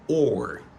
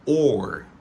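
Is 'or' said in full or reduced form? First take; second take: full; full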